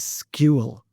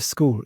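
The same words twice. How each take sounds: First: The word has a y glide after the k. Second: The word is said with a plain k-oo sound. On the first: "she would even kind of put a bit of a y into the into between the k and the u" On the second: "instead of school"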